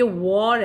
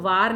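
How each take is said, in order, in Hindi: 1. स्वर गोल होंठों वाली 'aw' ध्वनि है। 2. स्वर खुली 'ah' ध्वनि है। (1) "आपको ये आ साउंड नहीं है, ओ साउंड है" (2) "आप इसको वार नहीं बोल सकते"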